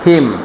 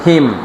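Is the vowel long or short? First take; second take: short; short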